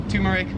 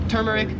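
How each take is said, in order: Both takes have the same delivery.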